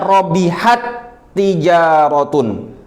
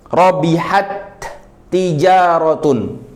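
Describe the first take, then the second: First: The first t merges into a doubled second t. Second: Both t sounds are pronounced clearly and separately. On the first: "tak yang pertama itu hilang ... tak yang kedua seakan-akan dia memiliki tasydid" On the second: "Itu namanya idhar. Dijelaskan tak yang pertama dan juga dijelaskan tak yang kedua"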